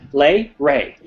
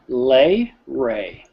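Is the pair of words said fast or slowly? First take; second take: fast; slowly. First: The two words are rushed out quickly. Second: The two words are said slowly and carefully. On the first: The speaker calls it wrong. "you guys are seeming to rush through this. You're like" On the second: The speaker calls it right. "Slow it down"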